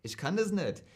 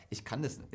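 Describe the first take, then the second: First: Hessian accent with "nischt"-like endings; Hessian attempt. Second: Said in the usual way. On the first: Shown as a demonstration. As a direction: try a Hessian accent, a bit forced. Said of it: "und das Hessische". (bemühter hessischer Akzent) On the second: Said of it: "das kann ich nicht".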